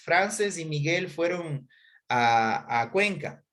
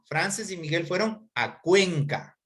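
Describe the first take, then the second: First: Cuenca is said without special emphasis. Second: Cuenca is said with strong emphasis.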